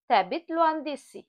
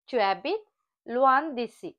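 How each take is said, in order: First: The first word shrinks to a t-sound. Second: The first word is a full separate syllable.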